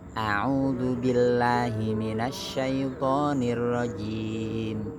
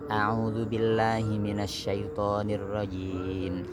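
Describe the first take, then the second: First: It is recited at a fairly fast pace. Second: It is recited at a very fast pace. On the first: "Ada lagi lebih cepat lagi, namanya tadwir" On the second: "Lebih cepat lagi, namanya hadr"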